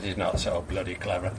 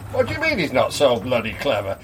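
First: Low, soft, quick grumble; dismissive landlord. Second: Quick, lower-pitched query; puzzled challenge. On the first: Landlord answers the gushing customer, dismissive. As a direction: toss it off low and unimpressed. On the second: Customer queries landlord's put-down of the dog, puzzled. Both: Acted.

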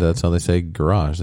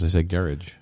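First: "garage" said as guh-RAHZH; second syllable of "garage" stressed, long ah; garage stressed late. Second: "garage" said as GARE-idge; first syllable of "garage" stressed, ending -idge; low "garage" that rhymes with carriage; English-style garage. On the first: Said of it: "That's how, in England". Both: Shown as a demonstration.

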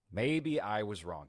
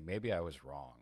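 First: Slower, weighted maybe I was wrong with stress on maybe; emphatic repeat. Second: Said in the usual way. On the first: Shown as a demonstration. Host doubling down on his admission, slow and emphatic. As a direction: lean on "maybe" and let it sink in.

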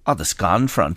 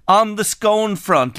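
First: "scone" with a short open O, pitched lower; scone rhyming with gone. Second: "scone" with a long O, higher and drawn out; scone rhyming with bone. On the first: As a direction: make "scone" rhyme with on. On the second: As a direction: slowly make "scone" rhyme with tone. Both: Shown as a demonstration. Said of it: "if you want".

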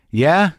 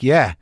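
First: "Yeah" lifted high in a rising question; higher, questioning "Yeah" that rises at the end; tentative question. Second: "Yeah" short, falling to a close; matter-of-fact "Yeah" with a falling end; confirming answer. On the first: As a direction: ask "Yeah" with interest, pitch going up. He responds tentatively to her offer. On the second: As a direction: answer "Yeah" as a settled fact, pitch dropping. She confirms, answering his question. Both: Retold or imitated.

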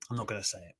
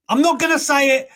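First: Much softer, lower, holding the words back; quiet self-restraint, barely voiced; muttered to himself. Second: Much higher and louder with the stress on not; firm, raised declaration, not hit hard; emphatic refusal. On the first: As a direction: mumble I'm not gonna say it under the breath. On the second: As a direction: punch the word not, I'm NOT gonna say it. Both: Real, not acted.

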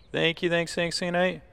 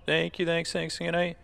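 The two takes are said the same way.

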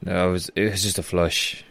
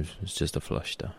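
First: Said in the usual way. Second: Muttered to himself. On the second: Acted. Repeats to himself, quieter.

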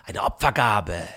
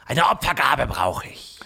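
First: Said in the usual way. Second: Hissed whisper of a serpent; whispering snake. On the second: Acted. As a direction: breathe it like a greedy snake. Snake demands an offering.

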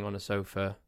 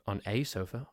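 First: Said in the usual way. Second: "a" said as a full "ay"; stress on A. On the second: Shown as a demonstration. Storyteller fussing over which sofa, stressing "a" as "ay". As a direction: lean on "a", pronounced "ay". Correcting own choice of article.

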